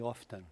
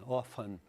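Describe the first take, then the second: First: It is said with a British pronunciation. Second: It is said with an American pronunciation. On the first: "A britânica, geralmente, eu já ouvi often" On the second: "Often é a pronúncia americana"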